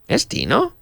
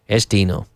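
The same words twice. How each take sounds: First: It is said with question intonation. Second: It is said with statement intonation.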